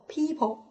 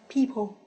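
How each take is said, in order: The two takes are said the same way.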